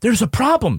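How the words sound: It is said with an alarmed gasp.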